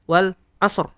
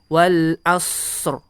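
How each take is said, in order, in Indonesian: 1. Bunyi s dibaca pendek. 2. Bunyi s mengalir dan dipanjangkan. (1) "jadi bukan wal asr" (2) "dialirkan dulu"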